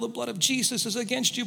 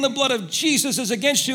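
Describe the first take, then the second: First: It is said at a quiet, normal volume. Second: It is said somewhat louder than normal.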